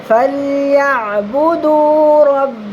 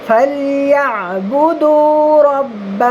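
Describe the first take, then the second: The two takes are said the same way.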